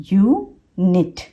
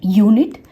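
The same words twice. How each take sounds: First: unit slowly split into यू and निट; syllable by syllable. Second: Said in the usual way. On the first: Shown as a demonstration. Teacher breaks a two-syllable word for learners, यू then निट. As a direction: pause between यू and निट, each its own beat. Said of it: "single syllable है". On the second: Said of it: "ये दो syllable word है".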